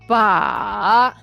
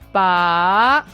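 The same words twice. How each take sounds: First: The pitch dips low, then rises high. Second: The pitch rises from low to high. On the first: It means handle. "The third tone, low to the bottom, then up to high" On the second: It means to pull out. "The second tone low to high"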